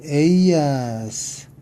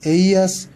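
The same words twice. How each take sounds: First: 에이아스 stretched out slowly; 에이아스 slow and clear; slow model reading. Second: 에이아스 short and quick; 에이아스 at quick pace; brisk read-through. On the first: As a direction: draw out 에이아스 for learners. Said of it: "한번 읽어볼까요". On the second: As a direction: tick 에이아스 off the list. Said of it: "우선 한번 읽어볼까요". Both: Shown as a demonstration.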